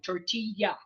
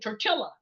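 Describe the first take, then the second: First: The double L is sounded as a Y. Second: The double L is sounded as an L. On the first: The speaker calls it right. "anytime you see a double L, it's a Y" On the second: The speaker calls it wrong. "they'd say tortilla... they would pronounce it phonetically"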